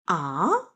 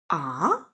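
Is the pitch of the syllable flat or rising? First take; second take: rising; rising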